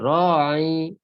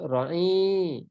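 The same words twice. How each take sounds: First: The first vowel is long. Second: The first vowel is short. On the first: The speaker calls it right. "panjangnya dua harakat" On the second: The speaker calls it wrong. "Tak boleh kata ra'i"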